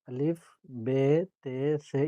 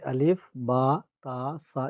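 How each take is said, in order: First: The letter names end in an 'e' vowel. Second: The letter names end in an open 'a' vowel. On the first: This is the less common reading used in only a few places. "ये मजहूल पढ़ना कहलाता है" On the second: This is the standard reading used in Quran recitation. "ये मारूफ पढ़ना कहलाता है"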